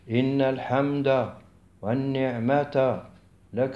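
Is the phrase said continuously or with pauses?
with pauses. There are pauses after الحمد and after والنعمة. The speaker calls it wrong. "خلافا لما يقوم به كثير من الناس"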